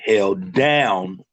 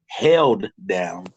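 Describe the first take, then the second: First: The emphasis falls on the word down. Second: The emphasis falls on the word held. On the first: Someone supported you unconditionally no matter what. "I put the emphasis on down" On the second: Someone is holding you back from progressing and growing. "when you hear me say held with emphasis"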